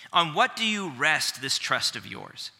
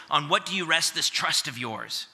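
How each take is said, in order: First: Weighty taunt, stress on what; measured scripture taunt; taunting question. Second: Quoted again, "what" stressed a little higher; teacher replaying the line for emphasis; re-quoted taunt. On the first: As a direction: lean on "what" in the challenge. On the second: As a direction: point back to the taunt, hitting "what". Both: Shown as a demonstration. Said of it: "Did you hear that word over and over again?".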